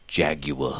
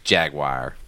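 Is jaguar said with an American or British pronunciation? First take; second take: British; American. First: The word is said with a British pronunciation. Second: The word is said with an American pronunciation. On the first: "the British guys say Jaguar" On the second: "But it's Jaguar"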